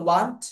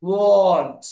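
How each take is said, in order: First: ওয়ান্ট as "waant", open "ah"; short questioning ওয়ান্ট with "wa", not "waw"; open wa sound. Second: ওয়ান্ট as "wawnt", vowel drawn out; rounded aw sound. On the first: Acted. Teacher voices a student's doubt, ওয়ান্ট asked as "waant". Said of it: "sir, ওয়া হবে না". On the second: Shown as a demonstration. Teacher models the sound for students, ওয়ান্ট as drawn-out "wawnt". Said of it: "এই সাউন্ডটা হবে অ sound".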